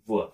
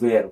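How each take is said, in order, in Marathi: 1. हा शब्द 'her' शी यमक जुळतो. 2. हा शब्द 'air' शी यमक जुळतो. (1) "त्याला वर म्हणायचं" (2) "वेअर नाही म्हणायचं"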